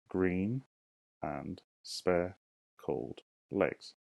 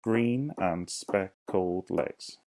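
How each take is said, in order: First: Dragged out word by word, syllable by syllable; very slow syllable count. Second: Each syllable said slowly and apart; slow syllable count. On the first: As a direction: stretch every syllable for counting. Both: Shown as a demonstration. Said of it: "Let's count them".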